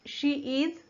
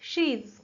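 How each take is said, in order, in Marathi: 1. हे दोन पूर्ण, वेगळे शब्द म्हणून म्हटले जाते. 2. हे एका आकुंचित अक्षरात म्हटले जाते.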